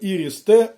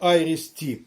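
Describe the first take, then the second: First: It begins with 'ee' and ends with plain 't'. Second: It begins with 'eye' and ends with 'tee'. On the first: The speaker calls it right. "все ж таки ІРІС-Т" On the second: The speaker calls it wrong. "а не АЙРІС-Ті"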